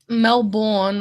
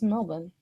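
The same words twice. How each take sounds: First: The name is said fully, with every syllable. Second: The name is said quickly in a shortened form. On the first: "It just takes too long to say" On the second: "so it's just Melbourne"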